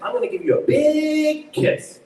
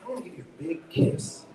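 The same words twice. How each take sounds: First: "big" stretched out high and loud; over-punch the adjective "big", slowly; stress on BIG. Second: "big" unforced, weight on "kiss"; stress on KISS. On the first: Director showing wrongly stressed adjective, "big" high and drawn out. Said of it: "like, adjective". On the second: Director showing natural version, stress on "kiss". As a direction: let the sentence land on "kiss". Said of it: "The kiss has all the meaning". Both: Shown as a demonstration.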